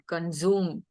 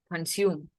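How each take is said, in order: First: The middle consonant is a buzzing Z sound. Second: The middle consonant is a hissing S sound. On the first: The speaker calls it wrong. "you had a Z sound. Consume is how you said it" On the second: The speaker calls it right. "we say sume"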